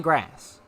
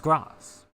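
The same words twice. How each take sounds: First: GRASS said with the "a" of "cat"; name the disliked American GRASS, short front vowel; American pronunciation. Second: GRASS as "grahs" with long "ah"; British pronunciation. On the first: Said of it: "I don't like grass". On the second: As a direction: correct it to the British GRASS, open long vowel. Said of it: "The British way". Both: Shown as a demonstration.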